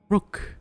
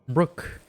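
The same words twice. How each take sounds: First: It is read in a put-on character voice. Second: It is read in the speaker's ordinary voice.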